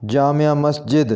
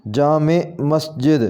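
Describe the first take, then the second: First: जामिया Masjid with 'jaa-mi-ya' in three syllables; mispronounced first word. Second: जामे मस्जिद slowly, with two-syllable 'jaa-me'; correct pronunciation. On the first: (जामिया Masjid में 'या' जोड़कर बोलें) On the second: (जामे मस्जिद में 'जामे' को 'ए' पर ख़त्म करें) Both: Shown as a demonstration. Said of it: "सही इसका तलफ़ुज़ होगा".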